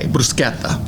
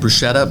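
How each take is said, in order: First: The middle consonant is a k sound. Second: The middle consonant is not a k sound. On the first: This is the Italian way of saying it. The speaker calls it right. "With a K, bruschetta" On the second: This is the American way of saying it. The speaker calls it wrong. "the American pronunciation people say bruschetta"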